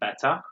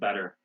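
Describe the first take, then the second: First: The middle consonant is a crisp T sound. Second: The middle consonant is a soft D sound. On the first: "they would say better" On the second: "We say better. So this double T becomes D sound"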